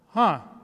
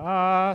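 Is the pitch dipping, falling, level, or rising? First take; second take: falling; level. First: The pitch falls from high to low. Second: The pitch stays level throughout. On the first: "the fourth tone is from high to low" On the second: "the first sound is like, ah. So you don't really change the tone"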